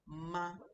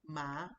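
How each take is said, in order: First: The pitch stays flat and level. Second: The pitch rises from mid to high. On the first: "there's no tone up or down. My my voice is just flat" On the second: "ma is going up"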